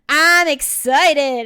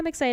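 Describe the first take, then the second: First: It is said with lively, excited energy. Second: It is said flatly, without excitement. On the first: The speaker calls it right. "okay, that's better" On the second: The speaker calls it wrong. "but you don't sound excited"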